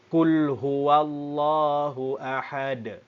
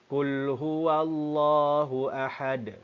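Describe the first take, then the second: First: The last word ends on a stopped d sound. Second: The last word ends on a stopped d sound.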